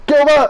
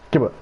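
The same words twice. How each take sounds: First: High, loud yell of the name; shouted call. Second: Said in the usual way. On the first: Acted. Calling after Gilbert as he walks past, shouted. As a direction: call GILBERT out sharply across distance.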